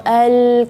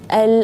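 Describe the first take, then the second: First: The l sound is drawn out loosely. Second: The l sound has a moderate length. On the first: The speaker calls it wrong. "atau al kepanjangan terlalu kendor" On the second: The speaker calls it right. "tapi dia tawassut"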